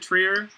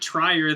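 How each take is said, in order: First: The name is said with a 'tree' vowel. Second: The name is said with a 'try' vowel. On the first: The speaker calls it right. "I know I'm supposed to pronounce it Trier" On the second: The speaker calls it wrong. "then you get to make jokes like Lars von Tryhard"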